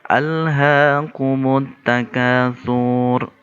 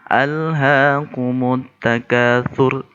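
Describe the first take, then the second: First: The final syllable is drawn out long. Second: The final syllable is cut short. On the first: The speaker calls it wrong. "Saya contohkan yang salah yang sering terjadi" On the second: The speaker calls it right. "Yang benar adalah dibaca pendek"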